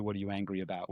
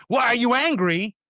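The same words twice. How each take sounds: First: Much softer, calm and caring; soft calm asking; gentle question. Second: Higher, louder, demanding; mock accusing question. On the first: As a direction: ask it kindly. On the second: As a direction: challenge them sharply. Harsh version of a question. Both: Shown as a demonstration.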